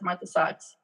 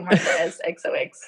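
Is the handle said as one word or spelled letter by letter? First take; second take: one word; spelled out. First: The end is said as one word, socks. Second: The end is spelled out letter by letter. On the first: This is how other people usually say it. The speaker calls it wrong. "people always say like pronounce it as Martha Socks" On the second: This is how the handle is meant to be read. The speaker calls it right. "but it's really Martha S X O X"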